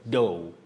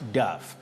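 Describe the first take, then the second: First: The word ends in an open vowel sound. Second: The word ends in a short vowel and 'f'. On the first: The speaker calls it right. "You say dough" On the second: The speaker calls it wrong. "which many people find themselves mispronouncing as duff"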